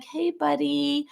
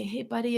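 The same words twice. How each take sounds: First: Higher, very slow syrupy "Hey, buddy"; sugary sweet parent. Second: Put-on soft, quieter coaxing call to a child; gentle parent voice. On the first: Retold or imitated. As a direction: drip fake sweetness through a forced smile. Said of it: "putting a sugary smile on their face". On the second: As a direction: ease into it like a patient parent. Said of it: "they come to me and they say".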